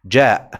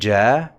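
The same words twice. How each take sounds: First: The vowel ends abruptly in a glottal stop. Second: The long vowel fades away at the end. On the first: The speaker calls it right. "I have a glotal stop at the end" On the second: The speaker calls it wrong. "I'm not saying ja and the alif, the long vowel here, fades away by itself"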